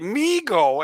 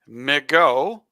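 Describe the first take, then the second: First: The first syllable sounds like "me". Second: The first syllable sounds like "mih". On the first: The name follows an old football broadcaster's saying. "after what Bob Ufer used to say" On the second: The name blends Michigan and go. "because of Michigan and go"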